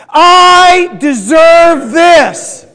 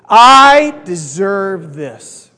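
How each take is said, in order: First: Very slow, loud, high shout; drawn-out emphatic roar; like you mean it. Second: Very slow, drawn-out group chant lead; slow, deliberate declaration; loud and proud. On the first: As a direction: bellow it with full conviction, stretching each word. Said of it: "like you mean it". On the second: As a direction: lead the crowd in saying it, stretching it out slowly. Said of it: "Say it with me really loud and proud". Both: Shown as a demonstration.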